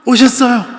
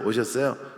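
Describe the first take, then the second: First: It is said as an overdone, gushing greeting. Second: It is said as a plain, ordinary greeting.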